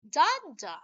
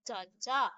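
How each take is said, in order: First: "Da, da" with the first da loud and higher; trochaic stress pattern. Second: "Da, da" with the second da louder; light first "da", punched second "da"; iambic stress pattern. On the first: Teacher showing how a trochee sounds, stress on the first "da". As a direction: punch the first "da", drop the second. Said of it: "How does it sound?". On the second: Teacher recapping the iamb beat, stress on the second "da". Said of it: "So that's iamb". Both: Shown as a demonstration.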